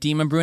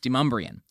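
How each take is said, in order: First: It is said like 'demon brune'. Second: It is said like 'demumbree-un'. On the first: The speaker is new to town. The speaker calls it wrong. "you've been like Demon Brune and people look at you funny" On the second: The speaker has lived in town a long time. The speaker calls it right. "the way it's supposed to be, which is Demumbrian"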